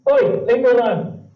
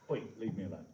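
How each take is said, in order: First: High, loud squeaky cat yelling at you. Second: Said in the usual way. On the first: Shown as a demonstration. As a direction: shriek it like an annoyed cartoon cat. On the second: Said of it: "It would help if I could spell now".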